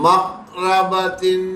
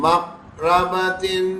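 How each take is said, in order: Both takes have the same delivery.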